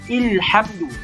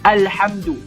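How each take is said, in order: First: The word begins with an i vowel. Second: The word begins with an a vowel. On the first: The speaker calls it wrong. "Kita tak baca ilhamdu" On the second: The speaker calls it right. "hamzah wasal berbaris fathah, baris atas"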